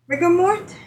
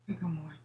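First: Said in the usual way. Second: Whispered aside; breathy whispered echo; whispering. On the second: Shown as a demonstration. Echoes the name in a whisper.

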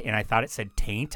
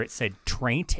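First: "Taint" said without the r; misread name. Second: "Traint" said clearly with the r; said right. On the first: Misreading the band name in mom's picture: "Taint" without the r. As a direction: drop the r, say "Taint". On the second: Reading the band name off mom's picture: "Traint" with the r. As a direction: stress the r in "Traint". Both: Shown as a demonstration.

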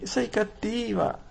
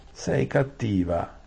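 First: Tearful whimper. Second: Slow, mildly higher Sei cattiva; mild whine. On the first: Saralin whimpers at Aravis in tears, very high. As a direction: whimper Sei cattiva like a hurt child. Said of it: "si lamentò ... fra le lacrime". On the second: Saralin sulks at Aravis, slow mild whine. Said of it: "si lamentò la Saralin". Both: Acted.

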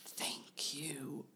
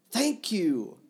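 First: Softer, breathy whispered thanks; sighing whisper. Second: Higher, louder burst of thanks; loud exclamation. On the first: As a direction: breathe it out like a sigh after fainting. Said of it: "he uttered slowly, as if sighing after a swoon". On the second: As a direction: blurt the thanks out loudly. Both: Acted.

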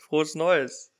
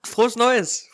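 First: Said in the usual way. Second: High, loud cheerful call; excited greeting. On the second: Real, not acted. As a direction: call out the New Year wish. New Year greeting called out.

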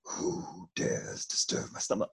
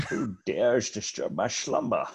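First: Deep rumbling cave voice, unvoiced; grinding stone statue. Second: Grinding stone statue. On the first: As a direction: boom it like a giant stone cave. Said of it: "he based the voice of the Cave of Wonders ... on Sean Connery". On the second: Retold or imitated. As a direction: rumble like a stone giant. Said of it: "based the voice of the Cave of Wonders".

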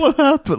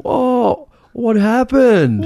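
First: Put-on very high squeaky echo of the old lady; mock old lady. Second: Put-on very high, slow, squeaky old-lady voice; mock old lady. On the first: Echoing the old lady's silly question, high and squeaky. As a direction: squeak it back high and dumb. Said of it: "Like, a duh". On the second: Mocking the old lady asking about the duck, slow and squeaky.

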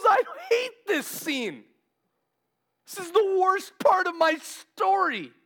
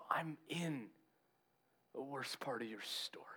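First: High, drawn-out anguished outcry; emotional. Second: Very soft, whispery answer; gentle reassurance. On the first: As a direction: act out distress, loud and high. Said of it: "if he's getting emotional". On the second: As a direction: hush it tenderly, as acted comfort. Jesus gently answers anguished Peter. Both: Retold or imitated.

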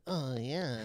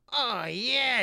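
First: Drawn-out moan of approval; creepy dwarf moaning. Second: Loud, high, relishing cry; gleeful lewd dwarf. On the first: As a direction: moan it like a pleased voyeur. Imitating dwarf heard outside the door. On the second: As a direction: crow it with lusty glee. Naked dwarf gloating on bed. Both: Acted.

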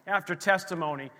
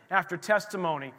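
No difference in how they are said.

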